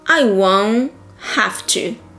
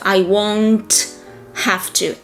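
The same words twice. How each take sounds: First: The T in won't is dropped. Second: The T in won't is clearly pronounced. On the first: "you drop them whenever it's possible" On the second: "Instead of"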